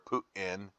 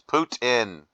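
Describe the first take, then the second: First: The T in the middle is softened. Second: The T in the middle is clearly pronounced. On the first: The speaker calls it wrong. "It's not Vladimir Putin" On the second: The speaker calls it right. "pronounce your T's"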